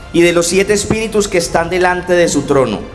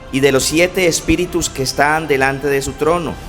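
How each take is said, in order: No difference in how they are said.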